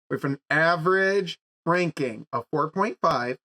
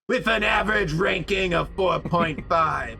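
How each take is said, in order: First: It is said in the speaker's normal voice. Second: It is said in an exaggerated put-on voice. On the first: The speaker calls it wrong. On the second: The speaker calls it right.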